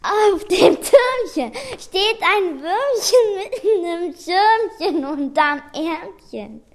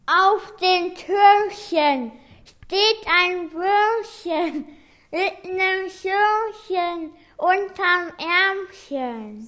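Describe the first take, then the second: First: Tearful, crying voice; sad. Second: Speaking around a cork between teeth; cork in mouth. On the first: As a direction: say it like you're about to cry. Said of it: "Mal traurig". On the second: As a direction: talk with a cork bitten. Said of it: "Jeder nimmt einen Korken in den Mund". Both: Shown as a demonstration.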